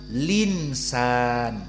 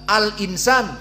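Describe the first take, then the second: First: The l joins straight onto the vowel. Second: A glottal stop follows the l sound. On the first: "Hamzahnya dihilangkan, habis lam langsung bertemu dengan nun" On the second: "Harusnya kan habis lam hamzah"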